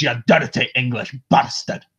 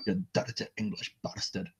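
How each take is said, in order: First: Broad Scottish accent, growled insult. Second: Scottish phrase. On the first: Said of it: "for me to go to Scottish". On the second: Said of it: "That's the Scottish". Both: Shown as a demonstration.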